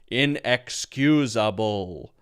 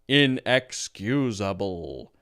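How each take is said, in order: First: Said like a robot, every syllable flat and even. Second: Said like a robot, every syllable flat and even.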